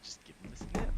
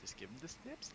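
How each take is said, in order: First: Breathy whisper. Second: High, soft and playful. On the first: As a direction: whisper it like a joke. Silly made-up phrase. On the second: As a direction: coo it in a high voice. Repeated silly phrase. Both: Pretend.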